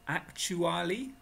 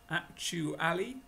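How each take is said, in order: No difference in how they are said.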